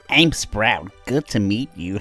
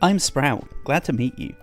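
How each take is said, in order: First: It is said in a put-on character voice. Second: It is read in the speaker's plain voice.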